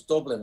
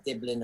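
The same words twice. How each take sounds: First: "Dublin" with a full, strong U. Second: "Diblin" with a short i in the first syllable; Kiwi vowel change. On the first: Pretend correction of a Kiwi speaker, "Dublin" with a strong U. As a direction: stress the U in the first syllable of "Dublin". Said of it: "it's a strong U". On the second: Imitating Kiwis naming his city, "Diblin" with an i sound. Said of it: "there's the vowel change". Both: Shown as a demonstration.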